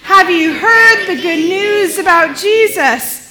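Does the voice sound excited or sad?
excited. The voice sounds excited and lively. The news is joyful. "in an excited voice"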